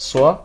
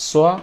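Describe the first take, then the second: No difference in how they are said.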